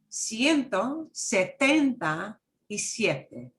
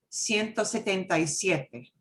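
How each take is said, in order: First: The number is said slowly and carefully. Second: The number is said quickly at normal speed.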